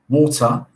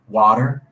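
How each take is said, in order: First: It is said in a British English accent. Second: It is said in an American English accent. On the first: "in England, we say water" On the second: "in the U S, they say water"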